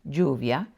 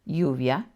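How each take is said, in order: No difference in how they are said.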